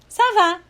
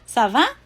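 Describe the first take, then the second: First: It is said with statement intonation. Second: It is said with question intonation. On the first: Replies that one is fine. "só usando a entonação" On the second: Asks how the other person is. "só usando a entonação"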